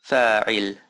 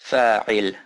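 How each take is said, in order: Both takes have the same delivery.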